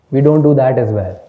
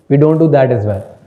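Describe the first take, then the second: No difference in how they are said.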